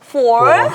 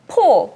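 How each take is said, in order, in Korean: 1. 영어식 발음으로 말해요. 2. 한국식 발음으로 말해요. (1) "아이에게만큼은 four, five 막 이렇게 가르쳤어요" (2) "저는 평소에 포, 파이브 이러지만"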